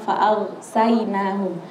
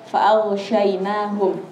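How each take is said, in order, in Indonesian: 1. Huruf setelah 'gh' itu 's' biasa. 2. Huruf setelah 'gh' itu 'sh' yang jelas. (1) "Jangan sampai dibaca" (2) "Itu huruf shin. Jadi harus jelas"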